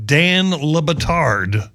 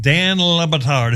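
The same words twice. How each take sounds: First: Dan Le Batard said slowly, syllable by syllable; careful name. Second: Dan Le Batard spoken slowly with the stress on Dan; name again. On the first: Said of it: "I think that's how you say his name". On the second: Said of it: "corrected his pronunciation". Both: Shown as a demonstration.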